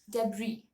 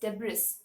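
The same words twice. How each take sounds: First: The final S sound is silent. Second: The final S sound is pronounced. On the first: The speaker calls it right. "The actual pronunciation is debris" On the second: The speaker calls it wrong. "since there's an S uh, at the end of the word, people call it as debris, which is wrong"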